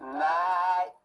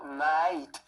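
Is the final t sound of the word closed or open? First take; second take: open; closed. First: The word ends open, without a closed final t. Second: The word ends with a clearly closed final t. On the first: The speaker calls it wrong. "Elle ferme pas, elle fait, elle fait night" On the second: The speaker calls it right. "elle fait pas night"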